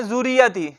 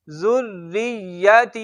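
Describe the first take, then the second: First: ज़ुरियती with a single short r; ज़ुरियती said quickly, no held r; wrong common reading. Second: जुर्रियती slow, with the rr held and the r thin. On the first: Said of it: "अक्सर इसको क्या पढ़ते हैं?". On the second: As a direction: stretch the rr in जुर्रियती, long ता. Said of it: "तीन कायदे". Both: Shown as a demonstration.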